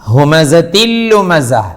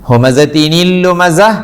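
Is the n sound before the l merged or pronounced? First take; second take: merged; pronounced. First: The n merges fully into the following l. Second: An n sound is pronounced before the l. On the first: The speaker calls it right. "ഇദ്ഗാം ബിലാ ഗുന്ന" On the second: The speaker calls it wrong. "ഹുമസത്തിനിൽ ലുമസ അല്ല"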